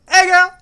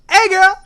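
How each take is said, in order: First: It is said in a high-pitched voice. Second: The same.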